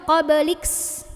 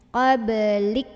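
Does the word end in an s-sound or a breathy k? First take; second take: s-sound; breathy k. First: The word ends with an added s-sound. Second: The word ends with a breathy k release. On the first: The speaker calls it wrong. "Jangan juga qabliks. Jadi ada S-nya" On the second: The speaker calls it right. "ada anginnya belakangnya"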